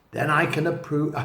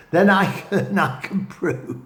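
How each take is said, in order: First: Said in the usual way. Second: Laughing through the words after tripping over "prove"; laughing at a slip. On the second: Real, not acted. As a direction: giggle and correct yourself, "I can prove". Laughs at his own slip.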